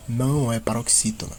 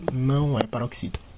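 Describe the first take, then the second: No difference in how they are said.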